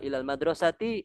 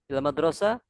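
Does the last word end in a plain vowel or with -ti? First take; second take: -ti; plain. First: The last word ends with an added -ti. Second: The last word ends without a final vowel. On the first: This is how learners like us say it. "kalau kita berikan harokat" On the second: This is how native Arabs say it. "mensukunkan huruf terakhir"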